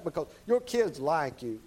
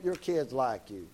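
First: Said in the usual way. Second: Tender emphasis. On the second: Shown as a demonstration. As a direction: lean in and say it gently, slowly. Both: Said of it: "Brother Clint".

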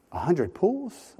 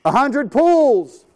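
First: Slow, rising disbelief; incredulous echo. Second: High, slow shout of the number; yelled order. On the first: Preacher echoing the captain's order, slow disbelief. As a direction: repeat it back in disbelief. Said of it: "incredulous echo". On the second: Captain yelling the depth to the men, slow shout. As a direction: bellow it across the deck. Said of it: "he yells". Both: Retold or imitated.

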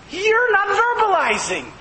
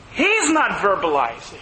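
First: "you're not verbalizing" pitched high and emphatic; stress on YOU'RE. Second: "He's" punched at the top, falling away afterwards; stress on HE'S. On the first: Preacher telling listeners what the text says, emphatic stress. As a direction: hold "you're" high, then let the rest fall. Contrasts you with Holy Spirit. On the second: Preacher contrasting the Spirit with listeners, stress on He's. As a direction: lean on "He's", then drop lower through "not verbalizing". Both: Shown as a demonstration.

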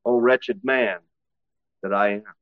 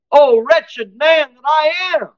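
First: Low, soft, defeated sigh of a cry; a hint of a broken man giving up; weak lament. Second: High, loud and slow, a soldier's anguished call; warrior's cry. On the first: Preacher voicing Paul as a weak lament. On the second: Acted. Preacher voicing Paul as a warrior crying out. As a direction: cry it out like a fighter wounded in battle.

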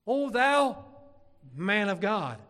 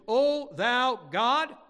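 First: "O thou" cried high and loud, then "man of God" set apart; "man of God" falling, as the answer; emphatic correction. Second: Loud, drawn-out cry on "O thou God", lifting at the end; "God" raised like a question. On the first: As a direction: pause before "man of God" and land it firmly. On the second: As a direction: call "O thou God" slowly as a challenge. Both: Acted. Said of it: "who do they cry out to?".

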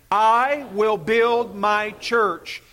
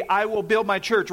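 First: "I will build my church" dito devagar, com peso em "I"; slow congregation recital. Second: Said in the usual way. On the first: Shown as a demonstration. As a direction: recite slowly, stressing "I". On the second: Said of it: "say them with me".

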